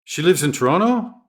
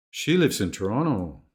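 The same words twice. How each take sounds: First: Toronto rises high, surprised question; rising question. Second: Toronto falls, quiet statement; flat statement tune; falling statement. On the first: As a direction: lift the end of Toronto. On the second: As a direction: drop the voice at the end of Toronto. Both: Shown as a demonstration. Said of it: "intonation can carry meaning".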